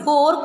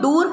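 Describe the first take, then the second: First: The vowel sounds like 'oh' in 'door'. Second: The vowel sounds like 'oo' in 'door'. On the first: The speaker calls it right. "D W और डोर" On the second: The speaker calls it wrong. "दूर पढ़ते हुए भी सुना है मैंने बच्चों को"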